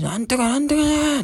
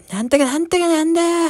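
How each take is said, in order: First: Imitating the old man. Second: Much higher mock auntie voice, slurred filler words; squeaky drunk woman's babble; imitating the auntie. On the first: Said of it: "そのおじさんの声". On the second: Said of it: "そのおばさんが". (甲高いおばさん声の真似)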